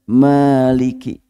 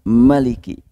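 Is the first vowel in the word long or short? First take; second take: long; short. First: The first vowel is held long. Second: The first vowel is kept short.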